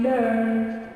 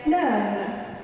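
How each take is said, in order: First: American "learn" with a held R; American accent. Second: British "learn" with a silent R; British accent. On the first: Teacher gives the American one for class, American accent. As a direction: sound the R fully in "learn", American style. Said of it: "the American one is". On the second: Teacher shows what the British say, British accent. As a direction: drop the R in "learn", British style. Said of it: "the British is gonna say learn". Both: Shown as a demonstration.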